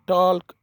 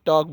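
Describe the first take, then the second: First: An l sound is heard before the k. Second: No l sound is heard before the k. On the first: The speaker calls it wrong. "टॉल्क नहीं बोलना" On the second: The speaker calls it right. "बल्कि टॉक बोलना है"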